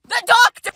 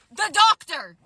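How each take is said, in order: First: Higher, louder exclamation; loud high-pitched disbelief; incredulous repeat. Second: Said in the usual way. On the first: Real, not acted. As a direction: repeat it as a big shocked reveal.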